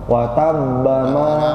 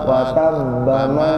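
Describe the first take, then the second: No difference in how they are said.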